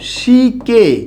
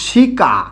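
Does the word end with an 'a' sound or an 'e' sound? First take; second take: e sound; a sound. First: The final vowel is an 'e' sound. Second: The final vowel is an open 'a' sound. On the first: "আ পরিবর্তন হয়ে কি হয়ে গেছে? এ হয়ে গেছে।" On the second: "এই শিকার মধ্যে এখানে কি আছে? রস্য ই... আ"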